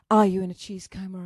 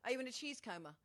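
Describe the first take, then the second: First: Loud question right into the mic; into the microphone. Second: Much softer, off-mic question; off the microphone. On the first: Host repeating the cheese question to a viewer, loud on-mic. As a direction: ask it loudly, straight into the microphone. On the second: Host asking a viewer about cheese, softly off-mic. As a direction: ask it quietly, away from the mic. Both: Real, not acted. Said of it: "I have to talk into the microphone".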